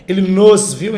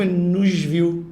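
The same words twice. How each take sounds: First: "nos" punched loud as a full syllable; overstressed pronoun. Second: "nos" reduced, joined onto "viu"; weak unstressed pronoun. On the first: Teacher demonstrating the unnatural way, overstressed "nos". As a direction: hit "nos" hard before "viu". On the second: Teacher demonstrating natural speech, unstressed "nos". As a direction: let "nos" slip weakly into a slow "viu". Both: Shown as a demonstration. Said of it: "eles são mais fracos foneticamente".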